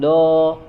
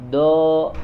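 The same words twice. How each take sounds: First: The consonant is not made from the tongue's side. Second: The consonant is made from the tongue's side. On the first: The speaker calls it wrong. "bukan do" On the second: The speaker calls it right. "do ya, tapi dari samping, dari sisi lidah"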